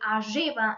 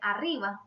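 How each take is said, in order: First: The R is rolled strongly with the tongue. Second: The R is rolled only lightly with the tongue. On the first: "on the Sierra region they say arriba" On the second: "we pronounce the R with less tongue rolling"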